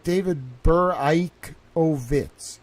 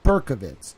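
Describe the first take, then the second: First: "Beraikovitz" slowly sounded out as bur-IKE-oh-vits; "Beraikovitz" with a long "eye" in the second syllable; proposed pronunciation. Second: "Berkovitz" run together in three syllables; "Berkovitz" with no "eye" sound after the first syllable; rejected pronunciation. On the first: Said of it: "It's, like". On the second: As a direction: say "Berkovitz" as BUR-kuh-vits. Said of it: "I think it's not". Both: Shown as a demonstration.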